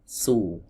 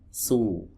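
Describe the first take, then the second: The two takes are said the same way.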